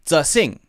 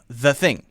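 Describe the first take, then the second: First: The first word begins with a z sound. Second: The first word begins with a th sound. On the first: The speaker calls it wrong. "people say z, z, z instead of the" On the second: The speaker calls it right. "instead of the, the, the"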